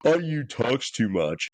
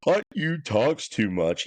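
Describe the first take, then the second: First: Slow whiny mimic; mocking rival fans. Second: Slow, higher whiny mimic; mocking rival fans. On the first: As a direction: drag it out, mocking. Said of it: "blowhorn in our face twenty-four seven of". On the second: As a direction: whine it out like a rival fan. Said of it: "Ohio State fans are all out here talking about".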